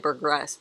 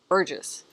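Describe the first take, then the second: First: An extra R sound follows the G. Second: No R sound follows the G. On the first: The speaker calls it wrong. "I always want to say Burgress" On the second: The speaker calls it right. "but it's Bur. Bur. Burgess"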